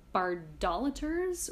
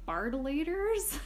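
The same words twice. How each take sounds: First: Bar-DOL-aters, stress on DOL in "Bardolaters"; stressed second syllable. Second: Bar-duh-LAY-ters, with a long A in "Bardolaters"; long LAY syllable. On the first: Host trying out an unfamiliar new word, stressed second syllable. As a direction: say "Bardolaters" as bar-DOLL-uh-ters, slowly. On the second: Host unsure of the new word, trying a long LAY syllable. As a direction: say "Bardolaters" higher and slowly as bard-o-LATE-ers. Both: Shown as a demonstration. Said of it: "whatever, I don't know".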